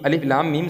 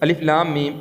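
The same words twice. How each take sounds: No difference in how they are said.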